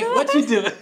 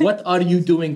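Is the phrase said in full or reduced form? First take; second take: reduced; full. First: The words run together with are dropped. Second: Every word is said fully and separately. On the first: The speaker calls it right. "but you can say" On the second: The speaker calls it wrong. "Like not like that"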